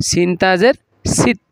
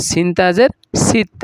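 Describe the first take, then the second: The two takes are said the same way.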